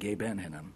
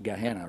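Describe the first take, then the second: First: The word is said more slowly in full form. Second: The word is said quickly in a shortened form. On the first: "rather than Gehenna" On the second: "in pronouncing it quickly, you sometimes end up with just Gehenna"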